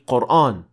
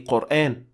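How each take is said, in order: First: The long vowel is heavy, with a full mouth. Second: The long vowel is light, with an empty mouth. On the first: The speaker calls it wrong. "you cannot say" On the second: The speaker calls it right. "you must say"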